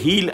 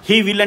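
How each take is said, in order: First: The two words merge into one syllable. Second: Both words are said in full.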